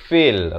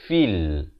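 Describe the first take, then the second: First: The vowel is open, closer to 'feh'. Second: The vowel is a clear close 'fee' sound. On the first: The speaker calls it wrong. "Jangan baca fil. Ramai baca fil" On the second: The speaker calls it right. "Sepatutnya di sini kita baca fil"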